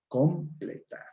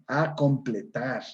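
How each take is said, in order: First: The word begins directly with the 'k' sound. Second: The word begins with an added 'a' sound. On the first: The speaker calls it right. "la palabra correcta es completar" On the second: The speaker calls it wrong. "Palabra con prótesis"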